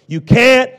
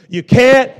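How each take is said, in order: Both takes have the same delivery.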